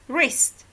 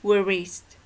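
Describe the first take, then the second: First: The W at the start is silent. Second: The W at the start is sounded. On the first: The speaker calls it right. "Only wrist" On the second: The speaker calls it wrong. "not wrist"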